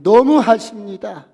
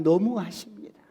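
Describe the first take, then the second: First: 너무하십니다 cried out louder and higher, falling; a grieving mother crying out 너무하십니다; loud lament; wailing plea. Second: A hint of a mother's grief on 너무하십니다; understated wailing; tearful plea. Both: A narrator's reading. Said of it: "통곡을 하면서 뒹굴면서".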